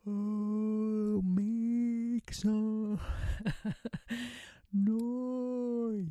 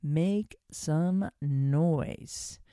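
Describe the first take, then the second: First: Higher, sung-out playful call with a laugh; sound-making demo. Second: Very slow, stretched name of the exercise; drawn-out title. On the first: Host demonstrating her voice warm-up, high and playful. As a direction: let it ring out high and free. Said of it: "It sounds like this". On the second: Host naming her exercise to listeners, slow and stretched. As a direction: savour each word slowly. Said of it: "I call it". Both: Shown as a demonstration.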